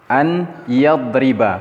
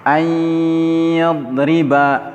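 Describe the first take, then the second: First: The n is pronounced clearly before the y. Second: The n merges into a long nasal y. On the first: The speaker calls it wrong. "Kalau dibaca an yadriba, maka ini salah" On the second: The speaker calls it right. "cara bacanya yang benar, ayyadriba, dengan dikasih gunnah di sana"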